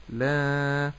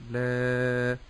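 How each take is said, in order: First: لا said the wrong way, drawn out slowly; wrong pronunciation demo. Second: لا with a light lam and a properly lengthened alif; correct pronunciation demo. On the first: Sheikh showing students the wrong لا, slow deliberate demo. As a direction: mispronounce لا on purpose, slowly. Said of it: "ولا أقول لا". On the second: Sheikh modelling the correct لا for learners, careful and full. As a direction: say لا cleanly, alif stretched. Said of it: "ولكن أقول". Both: Shown as a demonstration.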